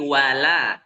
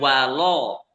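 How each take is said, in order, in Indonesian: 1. Suku kata l itu ringan dengan vokal yang terbuka. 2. Suku kata l itu berat dengan vokal yang membulat. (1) "wala itu dibaca tipis" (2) "jangan dibaca tebal, jangan walo"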